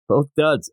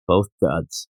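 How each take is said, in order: First: Said in the usual way. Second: Lower, dismissive drop on both duds; low, disgusted aside; low grumbled verdict. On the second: Shown as a demonstration. Verdict repeated, first low.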